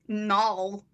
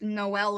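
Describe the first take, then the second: First: The name is said with one syllable. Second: The name is said with two syllables. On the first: The speaker calls it wrong. "he he he also pronounced Noel as Null" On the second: The speaker calls it right. "it's it's Noel"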